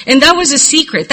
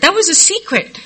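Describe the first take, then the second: First: Said in the usual way. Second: Higher, stressing "was" in "That was a secret"; emphatic repeat. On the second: Real, not acted. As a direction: lift the pitch and lean on "was".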